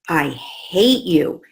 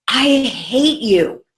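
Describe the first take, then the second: First: Slow, drawn-out mock I hate you; lightly hammed-up angry daughter; imitating child's angry outburst. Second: Slow, drawn-out angry I hate you; hammed-up furious child; imitating child's angry outburst. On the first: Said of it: "she looked at me and she said". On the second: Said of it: "she would go". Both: Mother retelling daughter's outburst, slow mock anger.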